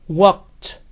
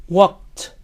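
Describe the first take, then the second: The two takes are said the same way.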